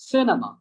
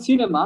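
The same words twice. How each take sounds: First: "cinema" as SIN-a-ma, short vowels; schwa pronunciation. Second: "cinema" with a fuller first syllable; wrong pronunciation. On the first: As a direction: say "cinema" with a weak ah in the middle. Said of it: "ডিফারেন্সটা". ("cinema"-র মাঝে ছোট আ ধ্বনি) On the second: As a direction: stretch the start of "cinema", SEE-ne-ma. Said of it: "It's not cinema". ("cinema"-র প্রথমে লম্বা ই) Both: Shown as a demonstration.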